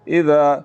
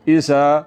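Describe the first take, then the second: First: The middle consonant is smooth, with no whistling hiss. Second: The middle consonant has a sharp whistling hiss. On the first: The speaker calls it right. "बगैर सीटी के पढ़ना है। तो ऐसे पढ़ेंगे इसको" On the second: The speaker calls it wrong. "अगर सीटी की आवाज़ के साथ मैं इसको पढ़ूँ"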